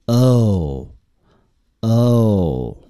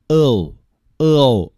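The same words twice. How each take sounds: First: "哦" as one smooth glide from uh to oo; merged diphthong. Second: "哦" broken into two parts, uh then oo; split vowel, wrongly. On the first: Teacher showing learners the correct merged diphthong. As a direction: blend the two halves of "哦" into one long sound. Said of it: "应该把它合并起来念". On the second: Teacher showing learners the mistake to avoid, split vowel. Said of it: "不能简单的发成". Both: Shown as a demonstration.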